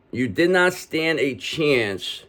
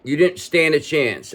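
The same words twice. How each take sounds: First: Did NOT drawn out slowly, every word weighted; slow emphatic repeat. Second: Said in the usual way. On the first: Shown as a demonstration. Reader assures the listener they beat the odds, slow and emphatic. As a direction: spell out You did not stand a chance slowly. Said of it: "slowed emphatic repeat". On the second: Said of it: "first plain take".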